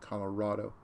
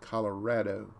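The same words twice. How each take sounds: First: Colorado is said with the outsider pronunciation. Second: Colorado is said with the local pronunciation. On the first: This is how people elsewhere say it. The speaker calls it wrong. "not Colorado. People everywhere else say it wrong" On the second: This is how residents say it. The speaker calls it right. "People from there, it's Colorado"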